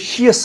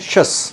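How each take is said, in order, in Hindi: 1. अंत दो अक्षरों में बोला जाता है, shee-us। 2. अंत एक अक्षर में बोला जाता है, shus। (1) "एक तो हमने इसे शियस नहीं पढ़ना" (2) "हमने इसे पढ़ना शस"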